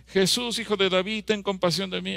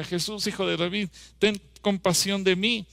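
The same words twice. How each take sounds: First: A beggar calling out high to Jesus; blind man crying out. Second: A raised pleading call, rising on "ten compasión de mí"; crying out. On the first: Retold or imitated. Blind beggar cries out to Jesus, pleading call. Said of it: "comenzó a gritar". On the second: Shown as a demonstration. Preacher shows the congregation how to cry out, pleading call. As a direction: shout "Jesús, hijo de David" as a plea. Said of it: "A ver, grita".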